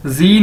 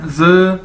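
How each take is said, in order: First: "जी" with a long "ee" vowel, like zee; mispronunciation demo. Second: "ज" as a buzzed z with neutral "uh"; corrected pronunciation. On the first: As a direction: say "जी" as the English letter sound zee. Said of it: "जी नहीं इसको कहना". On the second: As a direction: say "ज" as a held zz, without "ee". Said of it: "इसको क्या कहना है?". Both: Shown as a demonstration.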